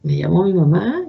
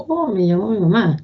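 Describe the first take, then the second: First: Said in the usual way. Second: Hopeful. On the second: Retold or imitated. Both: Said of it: "ese dejo de ilusión".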